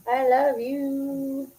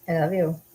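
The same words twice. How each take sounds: First: High, very drawn-out cooing; doting coo. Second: Said in the usual way. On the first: Real, not acted. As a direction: stretch it out high, cooing to a pet. Repeated as cooing to pet.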